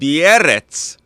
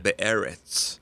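First: It is said with a Russian accent. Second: It is said with an American accent. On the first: "like a Russian" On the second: "you said it in American accent"

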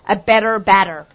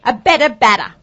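First: It is said in an American accent. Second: It is said without an American accent.

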